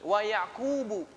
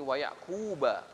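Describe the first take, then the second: First: The name ends in a short u vowel. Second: The name ends in a short a vowel. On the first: Yakub also made the same bequest himself. "yang masyhur adalah dibaca dengan rafa" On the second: Ibrahim made the bequest to his grandson Yakub. "dibaca juga dengan cara dinasabkan"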